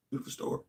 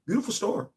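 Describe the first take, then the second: First: Breathy whispered aside, no voice at all. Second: Said in the usual way. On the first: Real, not acted. Streamer to chat, whispering in awe.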